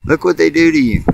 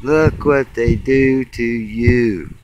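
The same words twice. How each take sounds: First: Higher, punchy, stress on what; emphatic jab. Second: Slow, dragged-out, stress on look; slow drawn repeat. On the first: Pointing at the spray trails, sharp emphatic jab. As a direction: jab the word what at them. Repeats line about the spraying. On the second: Repeating it at the sky, slow dragged-out lament. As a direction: draw each word out, shaking your head. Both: Real, not acted.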